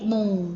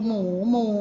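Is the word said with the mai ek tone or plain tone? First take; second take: mai ek; plain. First: The word is said with the mai ek tone. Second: The word is said with its plain unmarked tone.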